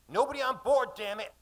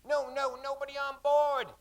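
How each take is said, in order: First: High, loud barked order; angry shout. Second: High loud shout. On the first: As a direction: shout it at the crew. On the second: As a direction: push them back with your voice. Mate pushing people back. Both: Acted.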